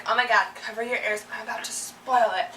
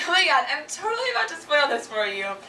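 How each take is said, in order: First: Warning spoiler. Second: Imitating a gleeful friend about to spoil a movie; mock delight at spoiling; gleeful spoiler. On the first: Retold or imitated. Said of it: "people who warn first and are like". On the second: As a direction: tease them with the spoiler, enjoying it. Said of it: "people who find joy in it".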